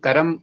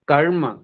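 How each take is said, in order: First: A short vowel is heard between r and m. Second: The r joins straight onto m, no vowel. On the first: The speaker calls it wrong. "र के बाद और म से पहले अ बोला जाता हुआ सुनाई दे रहा है, अतः उच्चारण अशुद्ध माना जाएगा" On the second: The speaker calls it right. "इसको हम म के साथ जोड़ कर के बोलेंगे, बीच में अ नहीं बोलेंगे"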